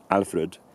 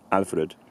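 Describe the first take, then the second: First: The final syllable has a reduced, weak vowel. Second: The same.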